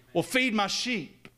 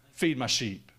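First: Urgent preacher's plea; insistent, higher and slower. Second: Said in the usual way. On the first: Acted. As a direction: raise the pitch and draw out feed. Building Jesus dialogue.

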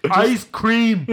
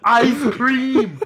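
First: High loud goofy yell; Forrest Gump. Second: High loud goofy yell with a laugh; dopey shout, laughing through it; Forrest Gump. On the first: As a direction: bellow it in a dopey high voice. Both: Retold or imitated. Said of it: "I'm talking like Forrest Gump".

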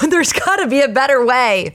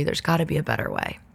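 First: Higher, laughing exasperation; exasperated. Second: Much softer, quick resigned aside. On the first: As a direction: plead for a better way. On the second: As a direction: mutter it to yourself. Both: Real, not acted.

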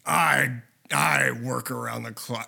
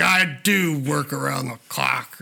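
First: Hint of a low, slow Harrison Ford rasp; Harrison Ford impression. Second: Slow, light Harrison Ford drawl; second try at the Harrison Ford line, lightly voiced; Harrison Ford impression. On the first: Friend mocks Harrison Ford's line, slow and low. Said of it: "Just the way he's like". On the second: Friend retries Harrison Ford's movie line, slow imitation. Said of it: "He's like".

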